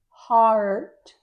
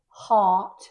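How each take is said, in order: First: It is said in an American accent. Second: It is said in a British accent. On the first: "In American English" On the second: "In British English"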